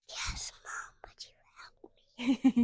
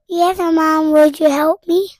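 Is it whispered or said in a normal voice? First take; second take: whispered; normal voice. First: It is said in a whisper. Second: It is said in a normal voice.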